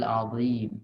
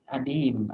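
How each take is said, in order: First: The middle consonant is a buzzing z-like sound. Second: The middle consonant is a plain d sound. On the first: The speaker calls it right. "Padahal hal azim" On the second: The speaker calls it wrong. "Orang Sunda ... Berubah. Adim artinya kulit"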